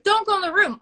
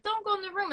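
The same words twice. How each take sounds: First: High, loud movie warning; mock warning. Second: High, softer mock warning; horror-viewer warning. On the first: Viewer calls advice to the movie character, high and loud. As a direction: call it out high and firm. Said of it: "instead of horror movies". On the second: Viewer warning the horror-movie character, high and hushed. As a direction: plead it high and under your breath. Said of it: "watching a horror movie".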